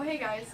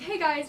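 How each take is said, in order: First: It is said in a casual everyday voice. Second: It is said in a put-on presenter voice. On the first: It is addressed to an ordinary person. "if I was saying that to just like somebody" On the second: It is addressed to a video audience. "when I do videos, I'm like"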